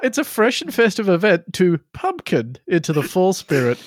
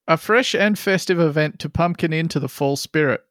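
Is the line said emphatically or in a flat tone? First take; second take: emphatically; flat. First: It is said with marked, playful emphasis. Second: It is said in a flat, neutral tone.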